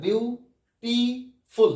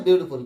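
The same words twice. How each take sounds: First: beautiful in three parts, বিউ, টি, ফুল, with pauses; slow, syllable by syllable. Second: Said in the usual way. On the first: Shown as a demonstration. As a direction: break beautiful slowly into three separate syllables. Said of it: "আস্তে আস্তে উচ্চারণ করে দেখো". (Beautiful আস্তে আস্তে ভেঙে ভেঙে) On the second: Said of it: "আমরা একবারে তো বলি".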